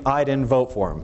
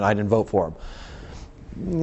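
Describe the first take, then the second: First: Said in the usual way. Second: Slow, low, sulky mumble of a sore loser; sulky mock voter. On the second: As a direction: drag it out like a grumpy voter. Same quote, mocked slowly.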